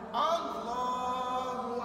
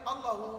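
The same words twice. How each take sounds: First: The middle vowel is held for two counts. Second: The middle vowel is cut short. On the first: The speaker calls it right. "contoh nama Allah dibaca wasal" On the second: The speaker calls it wrong. "Jangan baca Allahu, Allahu, Allah tu dibaca pendek, tak boleh"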